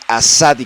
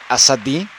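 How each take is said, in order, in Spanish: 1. Las dos A son largas y marcadas. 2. Las dos A son cortas y sencillas. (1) "lo correcto sería Asadi, como remarcar mucho las vocales, las dos As" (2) "puede que lo pronuncie mal"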